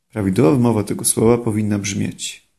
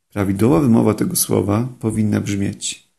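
Both takes have the same delivery.

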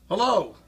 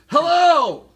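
First: It is said louder, around 90 decibels. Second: It is yelled, almost 100 decibels. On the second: "That's 100. Almost 100"

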